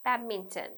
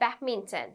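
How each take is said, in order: No difference in how they are said.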